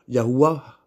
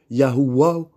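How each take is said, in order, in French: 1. La consonne du milieu se prononce avec un son w. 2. La consonne du milieu se prononce avec un son w.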